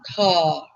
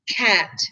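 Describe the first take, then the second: First: The vowel is an open British-style 'ah' sound. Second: The vowel is the flat American 'a' sound. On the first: "it's like the British sound, where it's ah" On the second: "in American English, all right, uh, the A is A"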